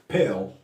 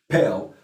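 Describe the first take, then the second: No difference in how they are said.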